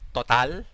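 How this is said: It is pronounced with a Filipino pronunciation. "we Filipinos call it Total"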